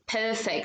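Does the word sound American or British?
British. It is said British style, smooth without the R. "like perfect"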